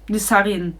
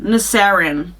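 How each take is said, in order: First: The name is said with a less American accent. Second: The name is said with a more American accent.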